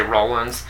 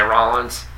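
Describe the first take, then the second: First: "Rollins" with a round OH, ROH-lins; New York pronunciation. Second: "Rollins" with an open AH, RAH-lins; other people's pronunciation. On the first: Explaining his New York accent, "Rollins" said with a long OH. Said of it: "my New York accent where I say". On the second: Showing how other people say it, "Rollins" with a broad AH. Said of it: "Other people say Rollins". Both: Shown as a demonstration.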